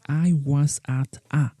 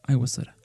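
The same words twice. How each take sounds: First: Each word is pronounced fully and separately. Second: The words are reduced and run together. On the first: The speaker calls it wrong. "And we don't say" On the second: The speaker calls it right. "And we say ... notice how much we reduced this"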